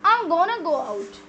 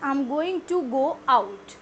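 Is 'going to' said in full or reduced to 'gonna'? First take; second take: reduced; full. First: 'Going to' is contracted to 'gonna'. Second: Every word is said in full. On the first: "by contracting these five, we make two words only" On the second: "आप कहना चाहते हैं"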